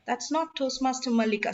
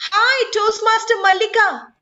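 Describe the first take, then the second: First: Softer, dropped-down correction; low pitch. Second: Much higher and louder bright greeting; high pitch. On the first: Trainer corrects the greeting to show low pitch, soft and low. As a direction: bring the voice down low. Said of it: "and low you can go". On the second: Trainer greets Toastmaster Mallika to show high pitch, high and loud. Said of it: "how high and low you can go". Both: Shown as a demonstration.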